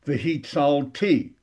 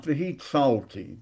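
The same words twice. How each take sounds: First: V'hitzalti with a long, strong final TI; stress on last syllable. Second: V'hitzalti leaning on TZAL, final ti light; unstressed ending on v'hitzalti; stress before last syllable. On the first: Teacher shows the future form, V'hitzalti stressed on final syllable. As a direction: punch the end of V'hitzalti. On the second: Teacher shows the mistaken past tense, v'hitzalti stressed on TZAL. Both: Shown as a demonstration. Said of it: "that's past tense".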